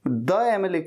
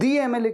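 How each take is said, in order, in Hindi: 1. 'The' को छोटे 'uh' स्वर के साथ बोला जाता है। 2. 'The' को लंबे 'ee' स्वर के साथ बोला जाता है। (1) "द एमएलए क्यों नहीं?" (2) "दी एमएलए क्यों कहते हैं"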